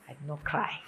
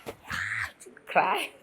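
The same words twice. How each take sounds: First: Said in the usual way. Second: Low, slow laugh through it. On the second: Real, not acted. Laughing as she tells viewers she kept from crying. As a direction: giggle it out, relieved.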